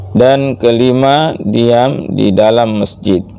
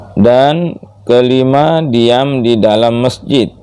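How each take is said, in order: No difference in how they are said.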